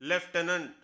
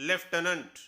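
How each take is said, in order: The two takes are said the same way.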